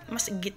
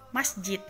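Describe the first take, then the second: First: The middle consonant is a hard g sound. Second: The middle consonant is a j sound. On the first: This is the everyday Egyptian form. "ja itu berubah jadi g" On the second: This is the formal standard form. "masjid itu pakai ja"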